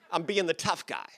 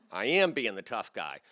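First: Said in the usual way. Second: AM punched, then falling away; stress on AM. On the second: Retold or imitated. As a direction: lean hard on "am". Repeats it, insisting on AM.

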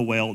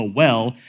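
First: "well" said like "wail", with a long ay vowel; the slip "well" stretched toward "wail"; mispronounced well. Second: "well" said plainly with a short e, like "fell"; the corrected "well" with a short clean e. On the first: Preacher slipping on "well", said like "wail". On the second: Preacher correcting himself, "well" with a short e. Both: Shown as a demonstration. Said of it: "not the well".

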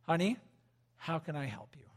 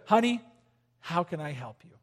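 First: Soft, gentle question to the wife. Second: Soft and gentle, dropping away; gentle question. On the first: Husband asking his wife softly how to help. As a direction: ask her tenderly, softer. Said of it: "I want you to say this to your wife". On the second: Husband gently offering his wife help. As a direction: say it tenderly to her. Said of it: "say this to your wife". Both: Shown as a demonstration.

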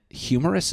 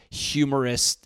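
First: "humorous" without a T, higher and rising; questioning the pronunciation. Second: "humorous" ending in a T, like humorist; mispronounced with a T. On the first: Shown as a demonstration. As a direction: test "humorous" as a question, ending in a plain S. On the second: Real, not acted. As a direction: say "humorous" with an added final T. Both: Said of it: "Is there a T in it now?".

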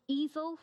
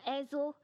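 First: "Ezel" said as EE-zel; long-E pronunciation. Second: "Ezel" said as EZ-el; short-E pronunciation. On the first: Preacher offers a name for the stone, "Ezel" as EE-zel. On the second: Preacher offers another reading of the stone's name, "Ezel" as EZ-el. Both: Shown as a demonstration. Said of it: "this stone called Ezel or Ezel".

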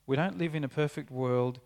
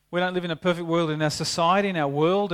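First: Said in the usual way. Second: Louder and quicker, pressing the point home; emphatic, building. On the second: Real, not acted. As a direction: drive the refrain up to the congregation. Preacher raising the refrain.

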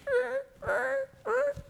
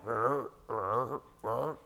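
First: Tiny, shrill rolled croaks; high-pitched frog croak. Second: Soft, low rolled croaking; low frog croak. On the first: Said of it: "would go real high pitched". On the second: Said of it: "you hear one over here going". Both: Acted.

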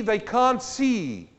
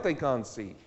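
First: "cant" drawn out slow and loud; preached emphasis on "cant"; slow stress on cant. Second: Said in the usual way. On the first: Shown as a demonstration. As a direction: lean hard on "cant", slowly.

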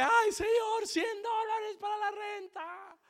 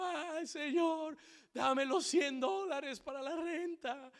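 First: Very high, loud drawn-out wail; hammed-up shrieked plea to God; mock loud crying out. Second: Slow, high wailing prayer; hammed-up drawn-out begging; mock tearful pleading. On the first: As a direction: imitate a desperate man wailing at the altar. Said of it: "clamaba y clamaba duro en el altar". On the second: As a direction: imitate a man crying out to God. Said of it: "clamándole al Señor, llorando".

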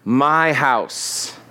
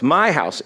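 First: My house, MY punched and drawn out; stress on MY. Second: My house with MY hit hard; stress on MY. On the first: Jesus rebuking the priests, stress on My. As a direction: hit My, let house fall. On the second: Pastor repeating Jesus' words, stress on My. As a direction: lean on the word My. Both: Shown as a demonstration. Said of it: "He makes a very emphatic statement".

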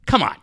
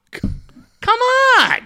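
First: Said in the usual way. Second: High, breathy, whining come on; whiny exasperation. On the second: Real, not acted. Fan groaning at a radio host he hates, high exasperated whine. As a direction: whine it like you can't take any more.

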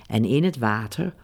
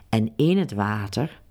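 No difference in how they are said.

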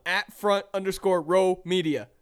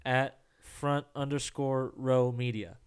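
First: Louder, clear handle demo. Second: Slow, careful repeat of the handle. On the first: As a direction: model it for him clearly. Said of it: "Say it, [name]". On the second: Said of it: "Nailed it". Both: Shown as a demonstration.

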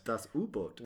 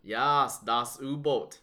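First: Put-on softer, hammy German accent on Das U-Boot. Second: Hammy fake German accent on das U-Boot; bad German accent. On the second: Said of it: "That was a really bad German accent".

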